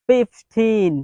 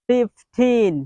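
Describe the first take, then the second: Both takes have the same delivery.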